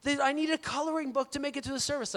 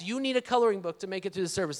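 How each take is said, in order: First: Put-on high-pitched little-kid voice; playfully mimicked child's request; three-year-old daughter. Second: Retold exasperated parent, in his own voice; hurried, disbelieving echo of the child; dad's retort. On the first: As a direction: imitate a small child pleading with Dad. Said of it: "my three-year-old in particular". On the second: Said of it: "I'm like".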